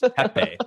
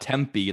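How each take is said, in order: First: No m sound comes before the p. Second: An m sound comes before the p. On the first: The speaker calls it right. "There's no M" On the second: The speaker calls it wrong. "It's not Tempe like temple"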